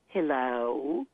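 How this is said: Southern accent with changed, drawn-out vowels. "We say hello. So the S in hello gets changed to an I. And the O gets elongated"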